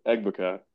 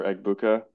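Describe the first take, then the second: First: Egbuka with a reduced "uh" in the middle; unsure name pronunciation. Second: Egbuka with a clear "oo" in the middle; alternative name pronunciation. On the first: Host attempting a player's name, Egbuka said EG-buh-kuh. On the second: Host offering a second try, Egbuka said EG-boo-kuh. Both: Shown as a demonstration. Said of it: "however you're supposed to say it".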